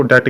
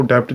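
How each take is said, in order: First: डेट said plainly, with no p sound; right pronunciation. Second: डेप्ट said with a p before the t; wrong pronunciation. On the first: Teacher showing students the correct way to say it. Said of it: "इसको डेट कहते हैं". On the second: Teacher showing students the wrong way to say it. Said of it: "इसको डेप्ट नहीं". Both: Shown as a demonstration.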